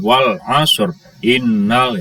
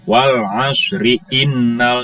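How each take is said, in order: First: The final vowel of asr is dropped before innal. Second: The final vowel of asr is sounded and linked. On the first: The speaker calls it wrong. "jangan wal asr innal" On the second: The speaker calls it right. "Harus disambungkan ke sini kalau menyambung antar ayat"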